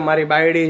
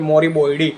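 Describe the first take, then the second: First: The vowels are plain, standard Gujarati vowels. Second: The vowels are rounded toward o, Surati style.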